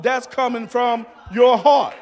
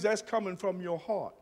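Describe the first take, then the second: First: Shouted refrain. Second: Soft refrain. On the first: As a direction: build to a shout and hit "heart". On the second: Refrain, the first take quiet. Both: Acted.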